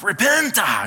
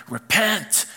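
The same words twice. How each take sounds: First: "Repenta." with an extra "ah" tacked onto the end, higher and louder; mock preacher "Repenta". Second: A stern, drawn-out preacher's "Repent."; mock hellfire preacher. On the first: Preacher parodying the revival-style repent, hammed-up. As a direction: belt "Repenta." with a hammed-up trailing "ah". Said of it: "you put a "ah" on the end". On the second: Preacher mocking how churches say repent, hammed-up. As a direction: hit "Repent." like a fire-and-brimstone preacher, no added vowel. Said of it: "I can't even do that voice".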